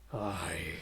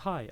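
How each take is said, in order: First: The voice sounds audibly distorted and eerie. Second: The voice sounds plain and undistorted. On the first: The frightening effect is active. "it'll sound like" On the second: The effect is not active. "where normally you'd be like"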